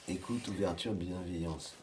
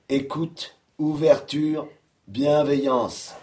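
First: The words are said at a softer volume. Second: The words are said at a louder volume. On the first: The speaker calls it wrong. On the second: The speaker calls it right.

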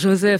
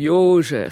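First: The name is pronounced the usual French way. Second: The name is pronounced the Hungarian way. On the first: The speaker calls it wrong. "c'est pas Joseph" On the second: The speaker calls it right. "c'est Joseph ... C'est du hongrois"

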